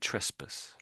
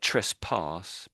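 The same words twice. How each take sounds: First: The second syllable is weak and reduced. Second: The second syllable sounds like a full 'pass'. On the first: The speaker calls it right. "it's basically said trespass" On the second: The speaker calls it wrong. "It looks like trespass"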